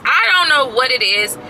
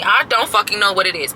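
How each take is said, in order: First: Higher, louder outburst; exasperated shout; frustrated shout. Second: Said in the usual way. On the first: Real, not acted. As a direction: yell it out in frustration.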